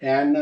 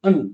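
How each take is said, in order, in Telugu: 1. ఈ అచ్చు పూర్తి, విశాలమైన 'a' ధ్వని. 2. ఈ అచ్చు చిన్నది, బలహీనమైన శ్వా ధ్వని. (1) "యాన్ అని అంటాము" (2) "కనెక్టెడ్ స్పీచ్ లో అన్ అవుతుంది"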